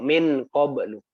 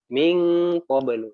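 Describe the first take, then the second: First: The n is pronounced as a clear n. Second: The n becomes a held, nasal ng sound. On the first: The speaker calls it wrong. "Jadi bukan bukan minkum atau min qablu" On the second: The speaker calls it right. "nonnya itu jadi ng ... dengong ditahan"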